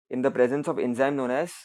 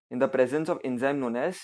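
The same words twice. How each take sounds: The two takes are said the same way.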